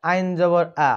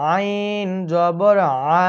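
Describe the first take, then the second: First: আইন জবর আ rushed with a long flat আ; wrong pronunciation. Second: আইন জবর আ drawn out very slowly, short আ at the end; correct zabar. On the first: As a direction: mimic the common mistake. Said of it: "অনেকেই বলে". (ভুল উচ্চারণের নকল) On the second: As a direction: model the right form slowly. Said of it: "সকলেই আমার সাথে বলার চেষ্টা করুন". (ধীরে সঠিক উচ্চারণ) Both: Shown as a demonstration.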